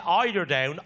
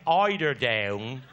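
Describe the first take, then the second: First: Said in the usual way. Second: "eider down" dropped much lower and drawn out slowly; low, slow repeat. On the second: Retold or imitated. Mother repeats the words.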